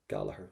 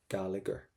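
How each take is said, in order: First: The middle gh is silent. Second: The middle gh is pronounced as a sound. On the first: The speaker calls it right. "We would say Gallagher" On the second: The speaker calls it wrong. "We would never say Gallagher"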